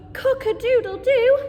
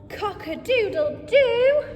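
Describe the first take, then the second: First: Loud, higher rooster call; rooster crow. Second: Loud, higher cock-a-doodle-doo crowed like a rooster. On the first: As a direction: crow along with the children. Children repeat animal noises. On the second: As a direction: crow it out for the kids. Reading farm book, rooster speaks. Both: Acted.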